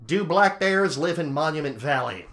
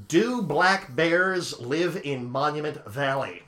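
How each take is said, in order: First: Said in the usual way. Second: Slowly spelling it out for the phone; slow, clear for voice search. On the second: Shown as a demonstration. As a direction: say each word slowly to a voice assistant. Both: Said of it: "It only picked up the word valley".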